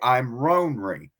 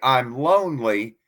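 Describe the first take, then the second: First: The word is said with R sounds. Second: The word is said with L sounds. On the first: "coastal Cherokee would say" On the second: "in most Cherokee, when you would say"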